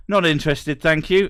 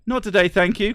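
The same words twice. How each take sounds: First: Overly polite, rising at the end; politely decline, chirpy; polite brush-off. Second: High, bright polite refusal; polite brush-off. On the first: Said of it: "the politest response is". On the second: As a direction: cheerfully shut them down. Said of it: "perfectly polite". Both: Pretend.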